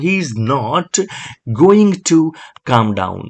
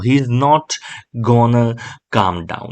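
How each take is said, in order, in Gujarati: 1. 'Going to' પૂરેપૂરો બોલાય છે. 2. 'Going to' ને 'gonna' તરીકે ટૂંકાવીને બોલાય છે. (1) "તમે કહી શકો" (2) "ગોના એટલે ગોઈંગ ટુ"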